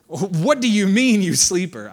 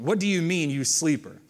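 First: Loud, drawn-out mock rebuke; scolding. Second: Said in the usual way. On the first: Captain to sleeping Jonah on the boat, loud scolding. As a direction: rebuke a sleeper, raised in pitch and volume. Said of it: "they're scolding him". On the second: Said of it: "that must be an odd translation".

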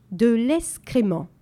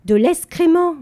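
First: De l'escrément split into slow, separate syllables; lescrément spaced out syllable by syllable, slowly; staccato. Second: Loud, high, forceful repeat; more energetic. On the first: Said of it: "en détachant les syllabes". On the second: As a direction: hit it harder and louder. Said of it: "avec plus d'énergie". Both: A narrator's reading.

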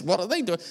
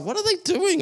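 First: Said in the usual way. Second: Much higher, mock-baffled spouse; playful imitation of a puzzled spouse. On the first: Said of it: "or you're with your kids". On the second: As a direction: toss it off like a confused partner. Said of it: "my spouse is like".

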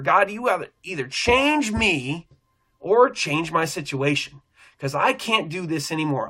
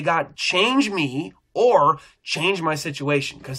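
First: Crying out in prayer. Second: Slow, steady, handed-over words; calm surrendered prayer. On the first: Stuck at the store, he pleads with God, slow and urgent. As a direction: plead it, pulling out the word change. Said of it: "I start crying out". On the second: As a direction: say it like you are letting go. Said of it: "and I can say". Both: Retold or imitated.

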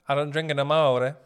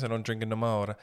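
First: Emphatic repeat. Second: Said in the usual way. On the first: Real, not acted. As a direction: push it out loud, lifting the last word. Repeats it louder, put on.

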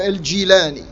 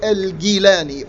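First: "Al-Jilani" with a soft j sound; alternate pronunciation. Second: "Al-Jilani" with a hard g, as in Gilani; alternate pronunciation. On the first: Lecturer offering the other regional pronunciation of the name, alternate pronunciation. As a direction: say "Al-Jilani" as Al-Jee-LAH-nee, j as in jeep. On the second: Lecturer showing one of two regional pronunciations of the name, alternate pronunciation. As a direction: say "Al-Jilani" as Al-Gee-LAH-nee, g as in give. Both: Shown as a demonstration. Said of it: "This is pronounced both ways".

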